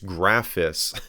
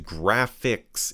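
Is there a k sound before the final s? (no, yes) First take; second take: no; yes. First: The name has no k sound before the s. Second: The name has a k sound before the s. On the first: The speaker calls it right. "It's Graphis" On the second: The speaker calls it wrong. "I thought that was Graphics"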